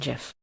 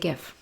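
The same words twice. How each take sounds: First: It begins with a soft J sound. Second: It begins with a hard G sound. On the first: The speaker calls it wrong. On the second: The speaker calls it right.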